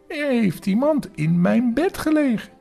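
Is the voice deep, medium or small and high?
small. The voice is small, light and high. The speaker is a small, young creature. "met zijn kleine stemmetje"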